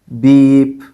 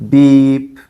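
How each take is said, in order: Both takes have the same delivery.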